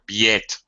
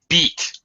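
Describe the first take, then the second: First: The vowel is split into two sounds. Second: The vowel is one pure sound. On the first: The speaker calls it wrong. "I'll hear biet. No, no, no" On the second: The speaker calls it right. "one vowel sound"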